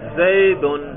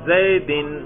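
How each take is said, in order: First: The word ends in the sound 'un'. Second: The word ends in the sound 'in'. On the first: The word is in the nominative case. "میں نے اس پر پیش پڑا ہے ضمہ" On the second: The word is in the genitive case. "میں نے زیر پڑھا اس پر"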